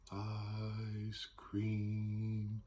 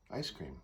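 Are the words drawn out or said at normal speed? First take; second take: drawn out; normal speed. First: The words are drawn out and held long. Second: The words are said at normal talking length. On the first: "singing is just sustained talking" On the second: "instead of"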